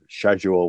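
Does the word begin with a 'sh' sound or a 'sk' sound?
sh. It is said in a British way. This is how British speakers say it. "where the British will say it"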